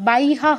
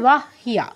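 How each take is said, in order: First: The y sound comes before the h sound. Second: The h sound comes before the y sound. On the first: The speaker calls it wrong. "বাইহা হবে না" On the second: The speaker calls it right. "কি হবে ওয়াহ হিয়া, এখানে হ আগে"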